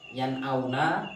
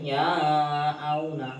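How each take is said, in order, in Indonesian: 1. Bunyi n dibaca dengan jelas. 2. Bunyi n dihilangkan. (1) "nun matinya dibaca dengan je, jelas" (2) "Tidak boleh"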